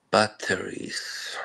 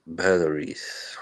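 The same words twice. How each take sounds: First: Slow whisper. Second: Said in the usual way. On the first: Shown as a demonstration. Streamer repeating his word to chat, whispered. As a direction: breathe the word Batteries slowly with no voice.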